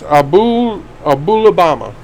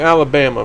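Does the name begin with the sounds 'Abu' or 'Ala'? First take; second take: Abu; Ala. First: The name begins with an added 'Abu' sound. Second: The name is said like the word Alabama. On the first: The speaker calls it right. "but it's" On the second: The speaker calls it wrong. "I want to pronounce her name Alabama"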